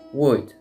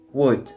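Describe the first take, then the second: First: The letters O and L are silent. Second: The same.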